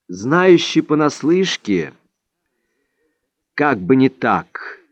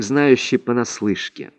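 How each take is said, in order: First: Scoffing exclamation. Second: Modest admission. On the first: Don Juan mocking Vicente's "Знающий понаслышке", a scoffing exclamation. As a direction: throw "Знающий понаслышке" back, drawn out and incredulous. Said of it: "воскликнул Дон Хуан". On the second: Don Vicente owning up to "знающий понаслышке", modest and subdued. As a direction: admit "знающий понаслышке" humbly, letting it sink. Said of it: "подыскивал нужное слово". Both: A narrator's reading.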